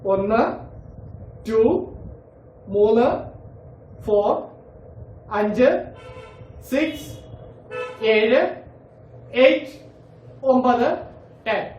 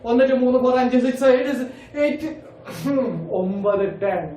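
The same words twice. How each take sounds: First: The numbers are counted at a slow pace. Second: The numbers are counted fast in one breath.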